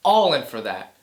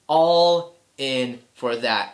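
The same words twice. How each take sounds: First: Said in the usual way. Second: "All in for that" drawn out slowly, ALL stressed; slow emphatic repeat. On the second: Shown as a demonstration. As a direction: stretch each word of "All in for that", lean on ALL.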